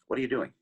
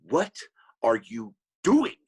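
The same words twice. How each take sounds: First: The question is asked in a plain, neutral way. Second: The question is asked in a threatening, menacing way. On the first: It is just a simple question. "There's nothing there" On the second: The listener is being threatened. "And then I'm like really scared"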